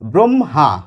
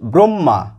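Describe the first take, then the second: First: An h sound is heard within the word. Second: A double m is heard with no h. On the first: The speaker is trying to sound correct. "শুদ্ধ করে বলার চেষ্টা করি ব্রহ্মা, একটি হ এসে যায়" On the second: This is how it is said in ordinary everyday speech. "দুটি ম এসে যায় আমাদের উচ্চারণে, হটি আমাদের উচ্চারণে থাকেই না"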